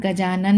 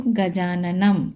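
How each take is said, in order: First: गजानन ending on n, no m; wrong anusvara-less reading. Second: Slow गजाननम with a long final "m"; anusvara as m. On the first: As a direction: stop गजानन at the n. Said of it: "गजानन नहीं पढ़ेंगे". (गजानन, अंत में "म" के बिना) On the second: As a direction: draw out गजाननम into a held m. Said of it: "कैसे बोलेंगे इसको". (धीरे गजाननम, अंत में लंबा "म") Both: Shown as a demonstration.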